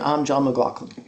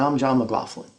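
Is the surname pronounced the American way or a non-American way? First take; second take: non-American; American. First: The surname has a non-American pronunciation. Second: The surname has its American pronunciation. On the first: He is speaking elsewhere in the world. "Other places around the world, he might say" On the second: He is speaking in the United States. "John pronounces his name McLaughlin when he's in the United States"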